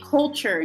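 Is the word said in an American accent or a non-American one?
American. The word is said with an American pronunciation. The speaker calls it right. "in American accent, you would say culture"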